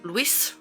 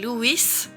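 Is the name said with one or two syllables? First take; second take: one; two. First: The name is said with one syllable. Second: The name is said with two syllables. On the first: This is how French speakers usually say the name. The speaker calls it wrong. "les Français, d'habitude, m'appellent Louis" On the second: This is how the owner says her own name. The speaker calls it right. "Je m'appelle Louis"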